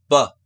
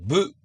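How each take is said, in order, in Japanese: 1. 子音の後には短い'uh'の母音が続きます。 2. 子音の後には'oo'の母音が続きます。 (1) "ショートU を加えるんです。だから、ば" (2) "日本語だとブ、ク、ドゥってうの母音を加えますけど"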